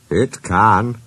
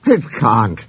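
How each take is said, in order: First: Firm retort with weight on CAN; insisting. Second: Quick denial with weight on CAN'T; contradicting. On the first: Engines argue over climbing mountains, insisting. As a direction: insist right back. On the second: Engines argue over climbing mountains, contradicting. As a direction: deny it flatly back. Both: A narrator's reading.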